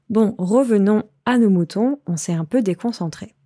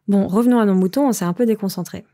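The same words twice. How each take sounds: First: It is said at a normal, careful pace. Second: It is said at a faster pace.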